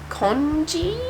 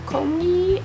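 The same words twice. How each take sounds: First: Congee said as KON-zhee with a questioning rise; unsure congee. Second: Congee said as KONG-ee with a hard ng, higher; second guess congee. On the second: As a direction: try Congee again as kong-ee, unsure. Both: Shown as a demonstration. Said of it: "I don't know how to say it".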